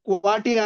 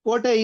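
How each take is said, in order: First: The first vowel is waa, the last i. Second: The first vowel is o, the last e. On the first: "Dharwad ಕನ್ನಡದಲ್ಲಿ ವಕಾರ ಬಂದರೆ" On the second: "ಕೋಟೆ ಇದ್ದದ್ದು"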